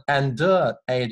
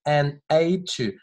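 First: "and" 词尾 D 读成“的”再接 "aid"; 错误示范读法. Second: "an aid to" 连读，"an" 后不发 D; 吞音示范. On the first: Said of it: "不要读成and aid就错了". (错误示范："and aid" 的 D 读得太重) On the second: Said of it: "这个D我吞掉了". (示范 "an aid to"，D 完全吞掉) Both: Shown as a demonstration.

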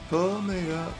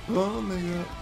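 The two takes are said the same way.

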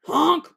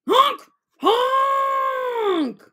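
First: Said in the usual way. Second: High, loud honking cry; loud honking shout. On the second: Shown as a demonstration. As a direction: honk it out like a goose. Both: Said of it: "made a racket".

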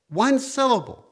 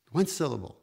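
First: High, loud exclamation of wonder; excited emphasis. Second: Said in the usual way. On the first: Acted. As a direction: cry it out with joy. Repeating the gift of a syllable.

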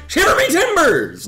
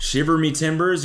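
First: High, loud pirate exclamation; over-the-top pirate holler; hammed-up pirate cry. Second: Said in the usual way. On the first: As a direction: yell it like a pirate in throes. Acts the term as climax cry.

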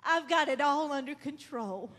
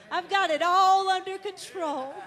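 First: Said in the usual way. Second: ALL under control, ringing out louder; rising preaching emphasis on all; louder, emphatic. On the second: Shown as a demonstration. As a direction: proclaim it louder, hitting all.

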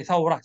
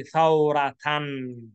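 First: Thawra cut short with a final ha; wrong form. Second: Thawratan drawn out slowly with full -atan; full tanween. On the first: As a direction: mark thawra as the wrong pausal ending. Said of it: "don't say thawra". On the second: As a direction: stretch every syllable of thawratan. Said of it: "say thawratan". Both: Shown as a demonstration.

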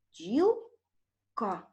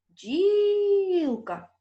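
First: Бджілка in two slow, separated syllables; split into syllables. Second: Бджілка called high and loud, long stressed і; calling the word. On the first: Teacher dividing бджілка for pupils, split into syllables. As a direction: break бджілка after бджіл, pause before ка. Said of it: "Поділимо перше слово на склади". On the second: Teacher finding the stress in Бджілка, calling it out. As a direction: call out Бджілка, stretching the first syllable. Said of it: "Покличемо це слово". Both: Shown as a demonstration.

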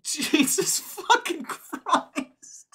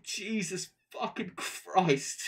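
First: High, loud and slow, laughing through it in disbelief; stunned laughing exclamation. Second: Slower, breath let out, calmer disbelief; sighing exclamation. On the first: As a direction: let it burst out in laughing shock. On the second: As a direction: exhale it, still amazed but settling. Calmer after a sigh. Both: Real, not acted.

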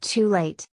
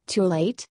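First: Mild moan with a falling end; understated moan, said as a final statement. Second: Mildly surprised question, rising at the end; understated surprise; surprised echo. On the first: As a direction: let TOO LATE fall away in regret. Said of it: "and then moaned". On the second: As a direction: echo it back with TOO LATE turned up into a question. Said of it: "he echoed in surprise". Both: A narrator's reading.

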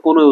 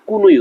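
First: Said in the usual way. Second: "কোনোই" said as kunui, with u vowels; altered pronunciation. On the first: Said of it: "আজ থেকে কোনোই উচ্চারণ করবো না". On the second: Shown as a demonstration. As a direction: turn both o sounds in "কোনোই" into u. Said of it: "admission session পর্যন্ত কোনোই উচ্চারণ করবো".

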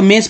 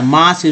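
First: मेस with a long "ay", like "mace"; wrong A as ay. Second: मास with an open "aa" vowel; A as long aa. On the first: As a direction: say मेस with the letter-name A. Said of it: "जो गलत है ना". (मेस में आ की जगह ए) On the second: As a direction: say मास as "maas", not "mace". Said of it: "यहाँ शुद्ध उच्चारण मास है". (मास में ए का उच्चारण आ) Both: Shown as a demonstration.

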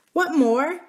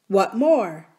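First: Put-on high-pitched child's question; small girl asking, curious; little princess. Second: Lightly voiced miner boy. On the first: Princess asking the boy's full name, high and curious. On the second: Miner boy asking princess for full name, lightly boyish. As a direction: ask back as the young miner.

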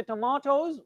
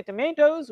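First: TOMATOES as "to-MAH-toes"; British pronunciation. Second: TOMATOES as "to-MAY-toes"; American pronunciation. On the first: Teacher showing students British English, "ah" in TOMATOES. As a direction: model TOMATOES with a British "ah" in the middle. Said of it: "we are using British English". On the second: Teacher showing students American English, "ay" in TOMATOES. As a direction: model TOMATOES with an American "ay" in the middle. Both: Shown as a demonstration.

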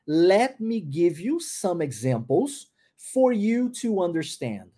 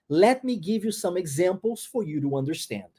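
First: "Let me give you some examples for you to understand" said very slowly, rising then falling; slow careful model. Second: Said in the usual way. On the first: Shown as a demonstration. Teacher slows the sentence so students hear the linking. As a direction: linger on every linked word, rise on "you", fall at the end. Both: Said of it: "olha a pronúncia disso".

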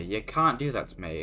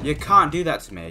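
First: Said in the usual way. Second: Raised, higher indignant complaint; loud protest. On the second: Real, not acted. Complaining at the game that scared him, raised and loud.

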